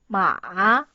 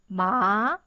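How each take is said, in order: First: The pitch dips low, then rises again. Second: The pitch rises from middle to high. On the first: "you have to go down firstly and go up" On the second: "you should go up and pronounce ma"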